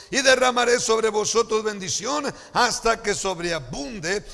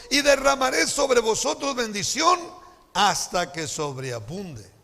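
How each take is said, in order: The two takes are said the same way.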